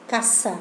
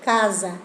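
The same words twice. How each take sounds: First: Casa with a sharp s; casa in plain Spanish. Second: Casa with a voiced z, said sweetly; Casa in Italian, soft s. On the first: (casa en español, s seca) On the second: (Casa dulce en italiano, con z sonora) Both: Shown as a demonstration. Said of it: "más dulce".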